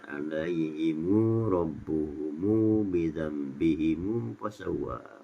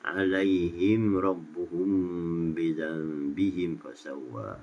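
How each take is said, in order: First: Each plural m takes a lengthened u vowel. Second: Each plural m is closed with no vowel.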